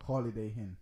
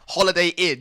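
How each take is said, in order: First: Holiday Inn said as Holiday Hinn; an aitch slipped in before Inn. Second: Holiday Inn with Inn starting on a vowel, no H; clean Holiday Inn. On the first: Real, not acted. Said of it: "why you put a H". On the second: Shown as a demonstration. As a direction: Inn said as plain Inn, no aitch. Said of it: "H where there was no H".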